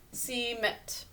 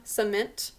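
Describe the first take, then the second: First: Cement with a clear E, /si-ment/, as it is spelt; spelling pronunciation. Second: Cement with a weak uh, /sə-mint/; real pronunciation. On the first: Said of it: "We think to say it as an E". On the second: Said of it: "it says more of an uh sound". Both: Shown as a demonstration.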